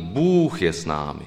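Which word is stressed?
Bůh. The stress falls on the word Bůh. It is God who stands with us, a cry of victory. "takové to akcentování"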